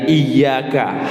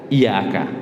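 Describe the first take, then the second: First: The 'y' sound is doubled and held. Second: The 'y' sound is single and short. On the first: Only you we worship. The speaker calls it right. "hanya engkau yang kami sembah" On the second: Only sunlight we worship. The speaker calls it wrong. "tidak menggunakan tasydid"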